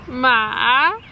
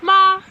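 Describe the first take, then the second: First: The pitch dips down and then rises. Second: The pitch stays high and level. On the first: "it goes down and then up higher" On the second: "you start at the top. It's like a higher pitched like one tone"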